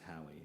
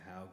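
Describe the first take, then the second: First: The name is said as two syllables. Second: The name is said as one syllable. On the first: The speaker calls it wrong. "I always thought it was Howie" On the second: The speaker calls it right. "but now I know"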